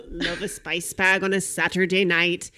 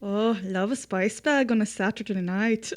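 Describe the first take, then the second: First: Put-on sharp, clipped Irish accent, a little louder; sharper Irish accent. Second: Put-on a generic Irish accent, cheerful. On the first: S0 retries the Irish reviewer, sharper Irish accent. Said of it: "it's, like, sharper". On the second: S1 takes a turn at the Irish reviewer, generic Irish accent. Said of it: "that was good ... a good generic Irish".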